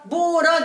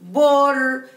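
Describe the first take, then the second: First: A vowel is added after the r. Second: The syllable ends on a bare r sound. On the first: The speaker calls it wrong. "ما اقولش بورة بورة" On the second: The speaker calls it right. "نقولها بور بور بور"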